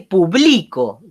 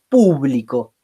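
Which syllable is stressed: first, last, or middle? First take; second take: middle; first. First: The stress is on the middle syllable. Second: The stress is on the first syllable. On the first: "Tiene como vocal tónica la I" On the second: "Tiene como vocal tónica la primera U"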